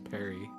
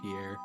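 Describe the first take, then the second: First: It is said like the name Perry. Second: It is said like the French name Pierre. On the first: "I always read it as Perry" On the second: "instead of Pierre"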